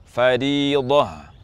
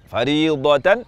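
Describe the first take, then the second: First: The word ends in a breathy h sound. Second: The word ends in a t followed by -an. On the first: "dengan huruf ha bersukun" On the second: "berharokat fathah tanwin"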